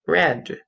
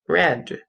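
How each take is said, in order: First: The vowel is short, rhyming with 'bed'. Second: The vowel is short, rhyming with 'bed'.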